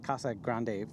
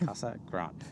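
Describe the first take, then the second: First: Grande is pronounced with Spanish sounds. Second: Grande is pronounced with English sounds. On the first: The speaker calls it wrong. "as we speak Spanish, it's spelled grande" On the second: The speaker calls it right. "But apparently it's not"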